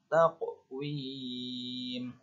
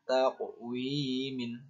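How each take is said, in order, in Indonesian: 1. Kata ini berakhir dengan m mati. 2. Kata ini berakhir dengan vokal tambahan dan n. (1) "mad arid lis sukun" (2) "tidak dibaca taqwimin"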